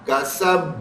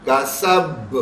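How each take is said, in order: First: The final consonant is released with an echoing bounce. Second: The final consonant is released with an echoing bounce.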